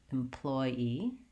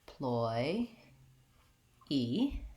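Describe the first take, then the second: First: The syllables run together at normal speed. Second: Each syllable is said separately and slowly. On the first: "then speed it up" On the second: "I can say each syllable by itself like that"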